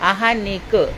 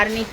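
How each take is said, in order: First: An 'h' sound follows the first vowel. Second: An 'r' sound follows the first vowel. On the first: The speaker calls it right. "आ के बाद हा हलवाई हा वाला" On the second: The speaker calls it wrong. "वो गलत है"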